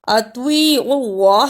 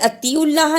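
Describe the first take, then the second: First: The t is a heavy, emphatic sound. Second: The t is a light, plain sound. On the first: The speaker calls it right. "त्वा की जगह पे ता की आवाज नहीं आनी चाहिए।" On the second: The speaker calls it wrong. "इसे अतिउल्लाह नहीं पढ़ना।"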